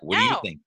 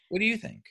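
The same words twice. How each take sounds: First: It is said in a condescending, talking-down tone. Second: It is said in a sincere, genuinely curious tone. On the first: The child is being talked down to. The speaker calls it wrong. "not like" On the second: The child's opinion is genuinely wanted. The speaker calls it right. "now this is not condescending"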